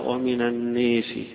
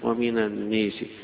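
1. الصوت الطويل مائل نحو 'ee'. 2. الصوت الطويل مائل نحو 'ee'.

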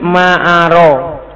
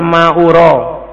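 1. Vokal setelah hamzah itu 'a'. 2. Vokal setelah hamzah itu 'u'. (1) "yajuz fathul hamzah bima'na la a'lamu" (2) "Kalau dibaca dhamma hamzanya ma'ura"

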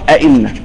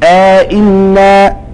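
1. الهمزتان متتاليتان بلا مدٍّ. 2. مدٌّ يفصل بين الهمزتين. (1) "وعدم ادخال" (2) "بادخال"

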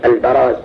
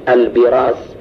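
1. المقطع الأول فيه الحركة a. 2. المقطع الأول فيه الحركة i. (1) "هكذا بالفتح" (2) "وبعض المحدثين ينطق به البراز، وهو لحن"

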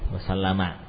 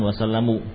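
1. Kata ini diakhiri dengan vokal 'a'. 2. Kata ini diakhiri dengan vokal 'u'. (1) "selalu fathah ya" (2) "yang betul bukan wasallamu"

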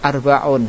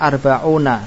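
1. Kata itu berakhir pada n tanpa vokal. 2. Kata itu berakhir dengan vokal setelah n. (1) "bacaan sardan" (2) "Ketika antum menyebut lengkap dengan harokat yang ada"

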